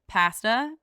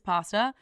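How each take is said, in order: First: The word is said in a Canadian accent. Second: The word is said in an American accent. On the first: "is what most Canadians" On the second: "most Americans"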